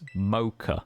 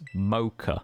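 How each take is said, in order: First: The word is said with an American pronunciation. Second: The same.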